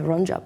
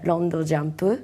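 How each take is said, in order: First: It is said with an Australian English accent. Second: It is said with a Japanese accent. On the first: "In English, people say" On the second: "but in Japanese we say"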